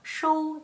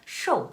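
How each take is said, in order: First: The syllable is said on a high, level pitch. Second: The syllable is said with a sharply falling pitch. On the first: "일성이고요" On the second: "사성입니다"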